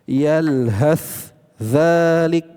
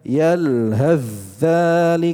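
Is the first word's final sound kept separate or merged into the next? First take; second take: separate; merged. First: The final th is sounded separately before the next word. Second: The final th merges fully into the next consonant. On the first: The speaker calls it wrong. "kalau secara terpisah seperti itu bacanya" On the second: The speaker calls it right. "langsung diidghamkan, dimasukkan ke huruf za"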